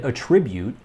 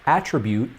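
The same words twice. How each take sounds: First: It is said with the verb pronunciation. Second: It is said with the noun pronunciation. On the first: It means to explain something by a cause. "attribute when used as a verb" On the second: It names a quality or feature. "attribute when used as a noun"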